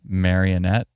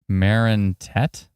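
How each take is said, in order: First: The name is said with four syllables. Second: The name is said with three syllables. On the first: The speaker calls it wrong. "Why did I keep saying marionette?" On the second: The speaker calls it right. "Marinette, not marionette"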